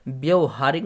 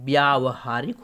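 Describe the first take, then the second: First: The first vowel is short. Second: The first vowel is long. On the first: The speaker calls it wrong. "व्यवहारिक नहीं" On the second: The speaker calls it right. "व्यावहारिक होता है"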